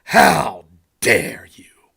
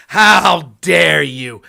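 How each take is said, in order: First: Breathy mock-outraged whisper, slow; mock indignation, whispered and slowed right down. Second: Loud slowed mock-indignant yell; hammed-up shouted how dare you. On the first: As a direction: hiss the outrage under your breath, mocking it. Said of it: "when you get this reaction". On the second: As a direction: bellow it to parody offended outrage. Mocking outraged opponent, shouted.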